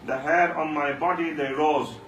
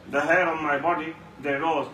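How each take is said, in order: Both takes have the same delivery.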